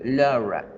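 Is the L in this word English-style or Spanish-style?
English. The L is said English-style, mouth more closed.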